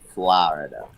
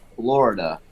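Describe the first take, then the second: First: Florida is said in an East Coast accent. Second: Florida is said in a Wisconsin accent.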